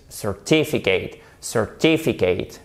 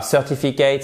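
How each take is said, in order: First: "certificate" stressed on the second syllable, cer-TI-ficate; lower, deliberate "certificate" with a strong TI. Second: "certificate" wrongly stressed on the first syllable, CER-tificate; misplaced stress. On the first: Teacher giving learners the correct form, stress on cer-TI-ficate. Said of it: "Accent tonique sur la deuxième syllabe". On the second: Teacher showing what not to say, "certificate" stressed as CER-tificate. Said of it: "c'est pas certificate". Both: Shown as a demonstration.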